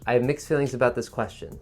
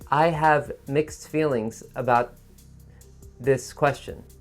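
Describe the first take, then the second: First: It is said smoothly in one breath. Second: It is said slowly in broken pieces.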